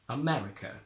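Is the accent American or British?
British. British accent, with a short, open e sound. "So from British to American, we get America"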